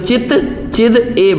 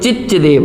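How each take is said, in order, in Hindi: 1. आखिरी दो शब्द अलग-अलग बोले गए हैं। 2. आखिरी दो शब्द एक साथ जुड़कर एक शब्द की तरह बोले गए हैं। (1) "संधि विच्छेद करेंगे तो" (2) "संधि मिला देंगे तो"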